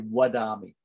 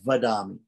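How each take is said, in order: First: The word begins with a W sound. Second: The word begins with a V sound. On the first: The speaker calls it wrong. "We we we wouldn't say wadami" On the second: The speaker calls it right. "We say vadami"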